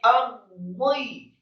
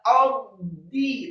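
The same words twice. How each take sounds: First: The d sound is heavy and thick. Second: The d sound is light and thin. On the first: The speaker calls it right. "tapi ardi ... dibaca dengan tafkhim tebal" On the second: The speaker calls it wrong. "tidak ardi"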